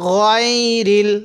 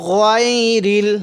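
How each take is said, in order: Both takes have the same delivery.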